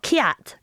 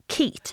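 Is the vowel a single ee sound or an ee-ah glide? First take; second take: ee-ah glide; single ee. First: The vowel glides from ee to ah. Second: The vowel is one long ee sound. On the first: This is how the name is really said. The speaker calls it right. "it's Kiat" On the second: This is how the written name looks. The speaker calls it wrong. "I read it as Keat"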